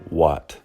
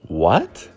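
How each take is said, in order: First: It sounds angry and hostile. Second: It sounds surprised and confused. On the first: The speaker dislikes the listener and is annoyed. "the second one implies, I don't like you. I'm pissed off" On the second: The speaker does not know what is going on. "The first one implies, I'm surprised. I don't know what's going on"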